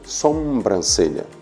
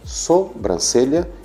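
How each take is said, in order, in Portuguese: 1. A primeira sílaba tem um som de m. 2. A primeira sílaba não tem som de m. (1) "e não sobrancelha ... como se viesse da palavra sombra" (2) "A palavra correta é sobrancelha"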